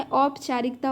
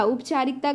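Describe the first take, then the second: First: औपचारिकता with the full au diphthong at the start, "au-pa-chaa-rik-ta"; correct form. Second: उपचारिकता said with a short plain u at the start, "up-chaa-rik-ta"; teacher sounds out the misspelt उपचारिकता with a plain short u onset; wrong form read out. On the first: Teacher giving students the correct spelling, au diphthong onset. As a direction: open the word औपचारिकता on a clear au glide. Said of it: "औपचारिकता होता है". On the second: Teacher reading a misspelt word to students, plain short u onset. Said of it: "उपचारिकता गलत है". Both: Shown as a demonstration.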